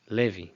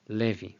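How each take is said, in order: No difference in how they are said.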